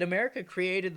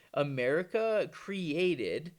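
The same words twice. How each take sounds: First: Said in the usual way. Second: AMERICA CREATED drawn out at half pace; slow emphasis. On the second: Real, not acted. Host hammering who created the problem, slow emphasis on "America created". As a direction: stretch out "America created", each word weighted.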